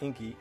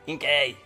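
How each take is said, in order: First: The name ends with an 'ee' sound. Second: The name ends with an 'ay' sound. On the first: The speaker calls it wrong. "Not Inky" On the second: The speaker calls it right.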